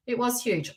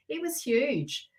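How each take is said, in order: First: Said in the usual way. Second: It was huge, drawn out slowly with weight on huge; slow emphasis. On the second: Real, not acted. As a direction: lean slowly on huge to stress how big it was. Emphasising eclipse size.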